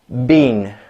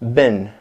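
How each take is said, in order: First: The vowel is long. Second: The vowel is short. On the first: "say that very long vowel sound" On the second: "we're going to shorten it"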